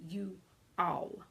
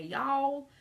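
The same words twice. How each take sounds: First: "you all" as two separate words, pause between; word broken down. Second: "y'all" as one long, higher Southern syllable; Southern drawl. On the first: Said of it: "they break the word down". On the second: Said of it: "with our Southern accents and draws". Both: Shown as a demonstration.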